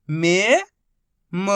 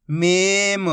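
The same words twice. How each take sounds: First: Each syllable held, long pause between; first syllable rising, then a separate second. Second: Whole word in one joined, drawn-out piece; teacher's blended model reading; syllables blended. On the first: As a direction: sound it out for beginning readers. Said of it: "एक ही अक्षर का उच्चारण करके". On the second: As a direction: join the sounds into one clear word. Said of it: "आपस में मिला के पढ़ना है". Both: Shown as a demonstration.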